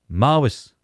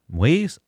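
First: The word is said in full, two clear syllables. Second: The word is contracted into a shorter form.

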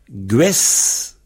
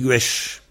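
First: The word ends with an 's' sound. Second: The word ends with an 'sh' sound. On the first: "gwes se prononce gwesh" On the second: "le Z, on le prononce CHE"

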